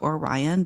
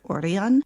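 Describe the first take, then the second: First: The name is pronounced the usual English way. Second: The name is pronounced the local Japanese way. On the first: "It's spelled O R I O N like Orion" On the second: "but they pronounce it Orion"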